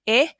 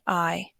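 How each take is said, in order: First: The vowel is said as a short sound. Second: The vowel is said as a long sound. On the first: "short I, saying I" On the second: "the long I, saying I"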